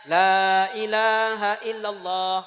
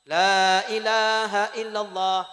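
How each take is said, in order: The two takes are said the same way.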